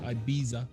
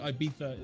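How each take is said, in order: First: The middle consonant is not a th sound. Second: The middle consonant is a soft th sound. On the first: This is not how it is said in Spain. The speaker calls it wrong. "They don't say Ibiza" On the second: This is how it is said in Spain. The speaker calls it right. "they say Ibiza in Spain, but it's, uh, it's a th"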